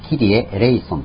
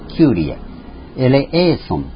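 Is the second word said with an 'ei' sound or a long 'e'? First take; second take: ei sound; long e. First: The words are said ki-ri-e, e-lei-son, shortened. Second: The words are said kyu-ri-e, e-le-e-son, with long e. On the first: This is the shortened form used in music. "音楽ではも短くしてキリエ、エレイソンと言っています" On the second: This is the original Greek form. "本当はキュリエ、エレエーソンというわけです"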